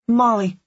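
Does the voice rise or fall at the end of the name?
fall. It is said as a firm statement, falling. The speaker gives the answer with certainty. The speaker calls it right. "I stated with more conviction"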